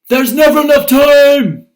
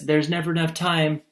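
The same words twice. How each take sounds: First: It is said loudly with strong exclaiming energy. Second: It is said calmly as a plain statement. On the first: It is an exclamation. The speaker calls it wrong. "Did she say it like this?" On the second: It is a plain statement. The speaker calls it right. "If the statement is like this"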